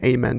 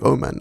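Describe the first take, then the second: First: The first vowel is an A sound. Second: The first vowel is an O sound. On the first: The speaker calls it wrong. "I didn't think about pronouncing the name accurately to the spelling" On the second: The speaker calls it right. "the A with an O-ring is pronounced more like an O"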